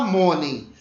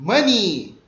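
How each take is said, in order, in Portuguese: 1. A palavra termina com uma vogal curta e seca. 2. A palavra termina com uma vogal longa e prolongada, tipo ee. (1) "não é para falar money" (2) "um I mais prolongado"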